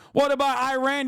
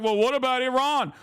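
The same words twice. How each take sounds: First: "Iran" said as eye-RAN; mock an ignorant objector saying "Iran" as eye-RAN; higher mocking question, "Iran" as eye-RAN; mock mispronunciation. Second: "Iran" said as ih-RAHN; mocking question, "Iran" pronounced ee-RAHN; mock quote. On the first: Repeats it with ignorant pronunciation. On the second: Mocks commenters, two pronunciations of Iran.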